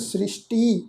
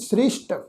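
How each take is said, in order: First: The word ends with an added 'ee' vowel. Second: The word ends on the consonant with no vowel. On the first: The speaker calls it wrong. "ਇਸ ਢੰਗ ਨਾਲ ਨਹੀਂ ਕਰਨਾ" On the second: The speaker calls it right. "ਇਹ ਸ਼ਬਦ ਆ ਜੀ ਸ੍ਰਿਸ਼ਟ"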